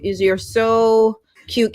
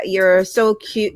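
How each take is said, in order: First: "You're so cute" said slowly, "cute" drawn long; stretched-out cute. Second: Said in the usual way. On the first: Shown as a demonstration. Streamer cooing back at viewer Karen, slow drawn-out "cute". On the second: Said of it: "You're so cute, Karen".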